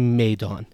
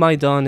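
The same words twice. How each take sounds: First: It is said with a shifted Iranian diphthong. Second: It is said in a Tajik Persian accent. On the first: "In Iran, it's definitely Maidan. So this A diphthong also shifts in Iranian Persian" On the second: "which is definitely Maidan in Tajikistan"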